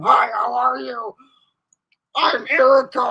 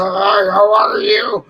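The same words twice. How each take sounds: First: High, loud playful introduction; hammed-up Erica saying hi; mock Erica intro. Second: Slow, loud put-on man's voice greeting; deep mock man's hello. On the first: Sibling Erica introducing herself to guys, hammed-up and loud. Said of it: "what you're gonna say to them". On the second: Sibling Erica greeting a stranger in a slow loud manly voice. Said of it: "I said".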